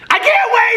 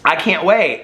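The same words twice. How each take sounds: First: It is said loudly, as a shout. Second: It is said at normal volume, not shouted. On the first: The speaker calls it right. "the last four things are all in caps. So he says" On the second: The speaker calls it wrong. "he doesn't say it like that"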